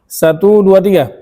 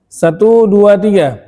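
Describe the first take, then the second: The two takes are said the same way.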